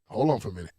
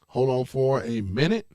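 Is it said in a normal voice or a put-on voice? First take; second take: normal voice; put-on voice. First: It is said in his normal voice. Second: It is said in a put-on voiceover voice.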